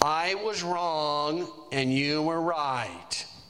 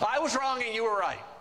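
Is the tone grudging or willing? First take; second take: grudging; willing. First: It is said grudgingly, with a sigh. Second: It is said willingly, with a good attitude.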